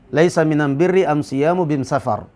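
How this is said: The articles are said with an 'm' sound.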